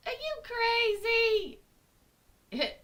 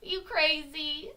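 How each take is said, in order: First: High, loud incredulous cry; outraged inner voice. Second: Slow, higher-pitched questioning; incredulous inner voice. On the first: Logical brain scolding her, high loud mock outrage. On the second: Logical brain questioning her, slow mild disbelief. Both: Acted. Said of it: "very small part of me that has a logical brain".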